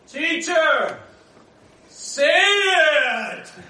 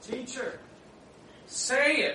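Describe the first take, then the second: First: It is shouted like a wrestling challenge. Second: It is read in a calm, plain voice. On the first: "I now suddenly move the scene to the WWF" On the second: "He said to the Lord Jesus, oh"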